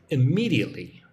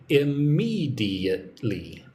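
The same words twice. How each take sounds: First: Said in the usual way. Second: Slow "immediately" with the second syllable, ME, stretched and stressed; teacher's slow demo of "immediately", emphasis on "me". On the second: Shown as a demonstration. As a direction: draw out "immediately", leaning hard on "me". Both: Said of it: "Put the emphasis on the second syllable".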